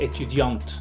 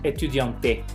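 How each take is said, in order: First: The final e of the word is silent. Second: The final e of the word is sounded. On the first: The speaker calls it right. "es étudiant" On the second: The speaker calls it wrong. "no es etudiante"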